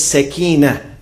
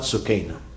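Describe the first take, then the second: First: The first syllable has an 'a' vowel. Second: The first syllable has a 'u' vowel. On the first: The speaker calls it right. "the right pronunciation is sakina, from tranquility" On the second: The speaker calls it wrong. "not sukaina. Many people say sukaina, it's not right"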